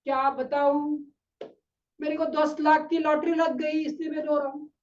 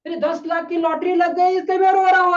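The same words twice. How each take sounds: First: Mild imitation of a man easing off his sobs; subdued mock crying. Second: High, loud wail building as he speaks; loud mock crying. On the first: Crying man explaining his lottery win, subdued mock weeping. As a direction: lightly act the tearful stranger. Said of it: "फिर थोड़ा सा रोने का थोड़ा सा कम करता है". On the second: Crying man repeating his lottery news, loud mock wailing. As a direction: imitate a man breaking into loud sobs mid-sentence. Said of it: "बोलते बोलते फिर से जोर से रोने लगा".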